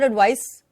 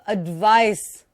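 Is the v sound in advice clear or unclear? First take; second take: unclear; clear. First: The v sound is not clearly pronounced. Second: The v sound is very clearly pronounced. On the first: The speaker calls it wrong. "not advice" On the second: The speaker calls it right. "बहुत ही clear"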